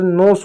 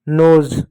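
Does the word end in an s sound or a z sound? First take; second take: s sound; z sound. First: The word ends with an s sound. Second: The word ends with a z sound. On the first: The speaker calls it wrong. "नहीं तो नोस हो जाएगा, गलत हो जाएगा" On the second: The speaker calls it right. "ज पढ़ेंगे"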